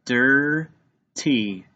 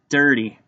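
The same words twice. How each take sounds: First: "Dirty" slowly as two held syllables, dir, tee; split into syllables. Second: Said in the usual way. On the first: Shown as a demonstration. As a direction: break "Dirty" in two with a pause between. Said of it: "are controlled syllables". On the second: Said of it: "Let's tap it out".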